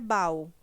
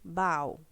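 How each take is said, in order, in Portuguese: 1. As duas vogais se unem numa mesma sílaba. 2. As duas vogais se unem numa mesma sílaba.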